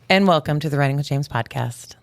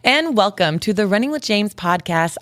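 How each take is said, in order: First: It is said in a plain, ordinary voice. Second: It is said in a hyped-up, energetic put-on voice.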